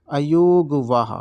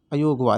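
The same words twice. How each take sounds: First: अयोगवाह drawn out slowly, syllable by syllable; teacher stretching अयोगवाह so it sinks in; slow and clear. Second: Said in the usual way. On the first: Shown as a demonstration. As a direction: spell out अयोगवाह slowly for students. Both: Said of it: "इन दोनों को बोला जाता है".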